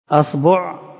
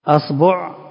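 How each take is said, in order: First: The vowel after the b is u. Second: The same.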